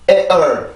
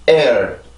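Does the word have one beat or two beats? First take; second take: two beats; one beat. First: Both vowel parts are stressed, making two beats. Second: Only the first vowel part is stressed, one beat. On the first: The speaker calls it wrong. "뒤에 있는 을 발음도 성대를 그 긴장을 시켜준다고 하면 ... 두 개의 리듬이 생기거든요" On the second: The speaker calls it right. "앞에 있는 강세에서만 성대를 긴장을 시키고 뒤에 있는 ... 모음에서는 풀어주는 거예요"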